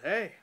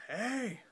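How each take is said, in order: First: Short, high, louder retold yell; yelled back. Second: High, drawn-out playful hey; playful call. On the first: Storyteller answering someone upstairs, re-enacted short high yell. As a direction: re-enact yelling a quick reply. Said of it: "and I yelled back". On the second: Retold or imitated. Unseen visitor calling from upstairs, imitated playful high call. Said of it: "It sounded playful from upstairs".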